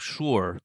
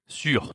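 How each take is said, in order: First: The word has an English-like pronunciation. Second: The word has a French pronunciation. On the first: The speaker calls it wrong. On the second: The speaker calls it right.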